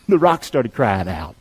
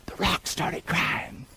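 First: Low, slower, with a chuckle; said with a laugh. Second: Breathy whisper, slow and secret; hushed whisper. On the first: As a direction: laugh it out after the whisper. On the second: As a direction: lean in and whisper it like a revelation. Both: Acted. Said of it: "Listen to me".

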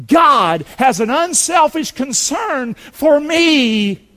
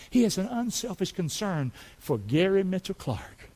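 First: "God has an unselfish concern for me" slow, loud and high; preacher proclaiming the key line. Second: "He has an unselfish concern for Gary Mitchell Clark" much softer, calm; quiet, intimate testimony. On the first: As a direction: lean on every word of it. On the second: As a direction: bring it down close and personal. Preacher softens to a personal aside. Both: Real, not acted.

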